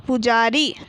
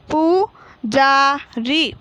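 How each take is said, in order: First: Said in the usual way. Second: Slow, long पू, जा, री; teacher stretching each syllable of पुजारी. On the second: Shown as a demonstration. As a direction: sound out पू जा री as separate pieces. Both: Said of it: "तो हम इस प्रकार पढ़ेंगे".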